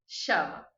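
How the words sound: The ll is said with an Argentine accent. "da Argentina e do Uruguai"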